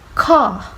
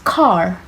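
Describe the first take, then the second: First: The final R sound is silent. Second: The final R sound is clearly pronounced. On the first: "In British, well, we say car, the R sounds are silent" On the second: "in American, it pronounced car, which the R sound is pronounced"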